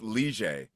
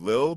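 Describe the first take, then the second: First: The name is pronounced like 'Lige'. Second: The name is pronounced like 'Lil'. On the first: This is the official way to say the name. The speaker calls it right. "that was the official pronunciation" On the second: This is how most people say the name. The speaker calls it wrong. "everyone does call him Lil"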